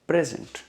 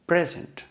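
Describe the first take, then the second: The two takes are said the same way.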